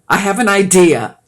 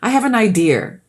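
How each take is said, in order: First: 'Idea' is said with no R sound added. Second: 'Idea' is said with an R sound added. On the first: The speaker calls it right. "There's no R on idea" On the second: The speaker calls it wrong. "In the Boston, they say"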